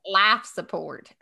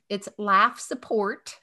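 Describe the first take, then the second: First: Slow Southern drawl on Laugh Support, Laugh sounding like life; Southern Laugh Support, almost life support; Southern accent. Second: Slow, laugh said clearly with a flat a, not life; correcting the Southern accent, laugh said crisply; careful pronunciation. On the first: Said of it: "you say that my Southern accent comes in". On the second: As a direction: spell out laugh in It's laugh support, slowly. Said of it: "The laugh and life support". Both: Shown as a demonstration.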